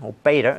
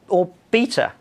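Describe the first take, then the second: First: It is said with an American accent. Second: It is said with a British accent.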